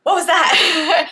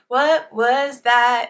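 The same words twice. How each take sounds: First: It is said startled, with a sharp gasp. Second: It is said plainly, without any gasp.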